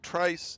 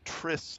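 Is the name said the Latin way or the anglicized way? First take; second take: anglicized; Latin. First: It is said with an anglicized, non-Latin pronunciation. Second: It is said with the original Latin pronunciation. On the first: "not Trice" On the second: "in the original Latin it would be Tris"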